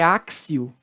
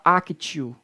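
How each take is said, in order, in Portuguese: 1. A consoante do meio tem som de S. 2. A consoante do meio tem som de T forte. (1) "Perceba que o T aqui tem som de C" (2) "Você não pode falar actio"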